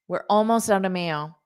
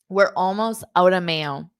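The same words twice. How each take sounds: First: The sentence is spoken at a fast pace. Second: The sentence is spoken at a slow pace. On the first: "I'll say it again fast" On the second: "Now I'll say it slowly"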